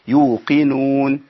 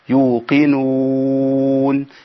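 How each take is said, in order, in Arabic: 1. يُمَدّ حرف المد حركتين. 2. يُمَدّ حرف المد أربع حركات. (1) "2 او 4 او 6" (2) "2 او 4 او 6"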